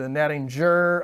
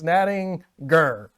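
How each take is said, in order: First: The g is pronounced soft, like in gem. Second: The g is pronounced hard, like in go. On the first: The speaker calls it wrong. "don't don't do the the natting jur" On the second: The speaker calls it right. "Hard G in that one"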